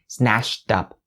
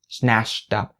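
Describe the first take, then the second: First: An sh sound links into up. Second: The same.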